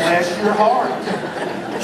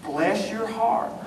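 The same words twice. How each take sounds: First: Slow Bless your heart through laughter; amused, drawn-out Bless your heart; laughing bless your heart. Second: Soft, slow mock-sweet Bless your heart; a soft slow sugary blessing. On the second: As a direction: purr it like a kind insult. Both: Shown as a demonstration. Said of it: "this great little phrase".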